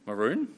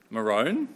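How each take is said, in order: First: "Maroon?" with a long oo, like moon; rhymes with moon. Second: "Maroon?" said as muh-ROHN, rhyming with bone; Queensland pronunciation. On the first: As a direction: say "Maroon?" as muh-ROON, questioning lift. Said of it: "How do you pronounce that colour?". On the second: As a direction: give "Maroon?" a long oh, questioning lift. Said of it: "Who's from Queensland here?". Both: Shown as a demonstration.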